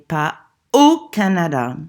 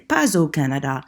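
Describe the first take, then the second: First: The s of pas stays silent before au. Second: The s of pas links into au as z. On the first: "but then I heard you say" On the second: "Why didn't you say"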